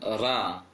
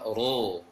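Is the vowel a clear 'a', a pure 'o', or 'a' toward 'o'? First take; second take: clear a; pure o. First: The vowel is a clear, open 'a'. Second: The vowel is a full, pure 'o'. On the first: "jangan ra" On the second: "jangan juga ro"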